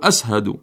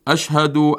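First: The middle consonant is an 's' sound. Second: The middle consonant is a 'sh' sound. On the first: The speaker calls it wrong. "يتلفظ في التشهد الشين سين" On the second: The speaker calls it right. "الشين سين فيقول بدل أشهد"

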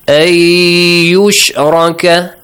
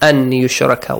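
First: The n sound merges into the following y. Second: The n sound is pronounced before the y. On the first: The speaker calls it right. "The correct reading is this way. I just omitted the noon" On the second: The speaker calls it wrong. "I'm reading it this way"

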